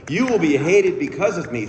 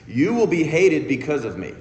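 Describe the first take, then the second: First: Louder, weightier scripture quote; Jesus quote, stronger. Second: A touch of solemn scripture voice; quoting Jesus. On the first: Speaker repeating the verse to the crowd, louder and declaiming. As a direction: lean into it, declaiming. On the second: Speaker quoting Jesus to the congregation, lightly solemn. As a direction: read it like a grave verse. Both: Retold or imitated. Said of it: "in which he says".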